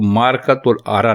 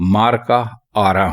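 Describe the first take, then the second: First: A 'tul' syllable comes before 'aara'. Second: No 'tul' syllable comes before 'aara'. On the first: The speaker calls it wrong. "मारकातुल आरा नहीं हुई" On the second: The speaker calls it right. "बल्कि मार का आरा हुई"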